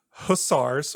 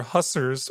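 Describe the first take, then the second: First: "hussars" as huu-SARZ, with a full AR; alternative pronunciation. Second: "hussars" as HUSS-erz, rhyming with fussers; alternative pronunciation. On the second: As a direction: say "hussars" with a short UH and weak ending. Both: Shown as a demonstration. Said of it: "however you wanna say it".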